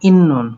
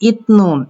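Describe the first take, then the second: First: A double n sound is heard. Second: A t sound comes before the n.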